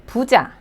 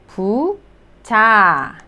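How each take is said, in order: First: Said in the usual way. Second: "부자" slowly, as two drawn-out syllables. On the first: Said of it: "부자, meaning the rich". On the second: Shown as a demonstration. Teacher sounding out a new word, syllable by syllable. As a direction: stretch "부자" into boo... jah with a gap. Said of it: "B sound and then the vowel 우".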